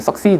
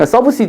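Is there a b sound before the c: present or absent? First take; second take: absent; present. First: No b sound; the consonant has assimilated. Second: A b sound is heard before the s. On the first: This is the assimilated, easier form. The speaker calls it right. "그냥 succeed 이렇게 된 거예요. 발음상" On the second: This is the original, unassimilated form. The speaker calls it wrong. "원래는 뭐냐면 subseed예요 ... subseed 어렵잖아"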